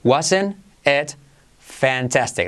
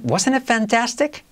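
First: "Wasn't it... fantastic", slower, split, falling; modelo por partes. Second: "wasn't it fantastic" joined up, high and rising; pregunta modelo enlazada. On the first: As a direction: separate "Wasn't it" from "fantastic" for learners. ("Wasn't it... fantastic" pausado y descendente) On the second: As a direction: lift "wasn't it fantastic" as a linked question. ("wasn't it fantastic" enlazado, agudo y ascendente) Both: Shown as a demonstration. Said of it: "Repite conmigo".

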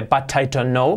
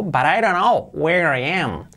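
First: "But I don't know" with hard t's in "But" and "don't", rising at the end; hard-T wrong version. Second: "But I don't know where I am" linked, "But I" as "buh-rai"; slow, tap the t's of "But" and "don't" like soft r's. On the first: Teacher showing what isn't said, hard T's. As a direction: say "don't" with a full t, word by word. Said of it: "No dice". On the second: Teacher giving the correct linked version slowly, soft T's. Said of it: "las T's las convierten en". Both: Shown as a demonstration.

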